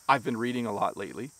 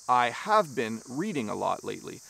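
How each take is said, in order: First: "I have" is shortened to "I've". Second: "I have" is said as two full words. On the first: "I would use a contraction" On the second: "You would say"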